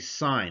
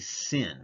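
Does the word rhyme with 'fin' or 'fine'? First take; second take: fine; fin. First: The vowel is long, rhyming with fine. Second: The vowel is short, rhyming with fin. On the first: The speaker calls it right. "I still say sine" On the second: The speaker calls it wrong. "I don't say sin"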